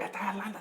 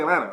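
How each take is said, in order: First: Both t sounds are clearly pronounced. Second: Neither t sound is pronounced. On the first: The speaker calls it wrong. "too much" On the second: The speaker calls it right. "both T's are silent"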